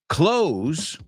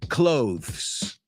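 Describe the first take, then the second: First: It sounds like close, with no th sound. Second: It is said with a th sound before the s. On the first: This is how the speaker and people from the speaker's area say it. "yo al menos lo digo como cerrar" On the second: Some other speakers say it this way. "I've heard some people say clothes, but I don't"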